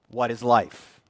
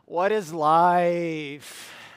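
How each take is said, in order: First: It sounds like a plain, neutral question. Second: It sounds like a weary, complaining statement.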